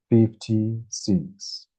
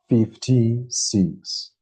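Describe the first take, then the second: No difference in how they are said.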